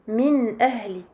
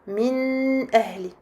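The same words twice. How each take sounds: First: The n is clear and held only briefly. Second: The n is nasalized and held too long. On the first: The speaker calls it right. "on dira plutôt min ahli" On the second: The speaker calls it wrong. "et non pas min ahli"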